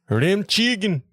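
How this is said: It is said in a German-sounding accent.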